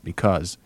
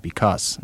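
First: The word ends with a Z sound. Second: The word ends with an S sound. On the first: "not a final Z" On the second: "pronounce it with a final S"

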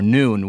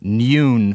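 First: No Y sound comes before the vowel. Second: A Y sound comes before the vowel. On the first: The speaker calls it right. "where there never was a Y" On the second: The speaker calls it wrong. "overdo it trying to sound British"

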